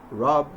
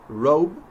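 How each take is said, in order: First: "rob" with an open, unglided vowel; mispronounced O. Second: "Robe" with O gliding into W; American O sound. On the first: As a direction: say "rob" with plain ah, no W glide. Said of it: "instead of rob". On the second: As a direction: round the vowel of "Robe" off into a w. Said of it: "to make the American O sound". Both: Shown as a demonstration.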